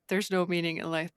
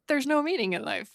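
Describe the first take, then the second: First: It is said in a gloomy, despairing tone. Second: It is said in an upbeat, hopeful tone. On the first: Life is pointless. "at first I was like" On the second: You are free to create your own meaning. "but then I was like"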